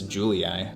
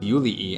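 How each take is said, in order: First: The name is pronounced with English sounds. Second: The name is pronounced with Latin sounds. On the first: "English is Julii" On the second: "Latin is Julii"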